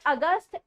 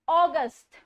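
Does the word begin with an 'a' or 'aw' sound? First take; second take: a; aw. First: The word begins with a short 'a' sound. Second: The word begins with an 'aw' sound. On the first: The speaker calls it wrong. "It's not अगस्त" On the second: The speaker calls it right. "It's ऑगस्ट. ओ"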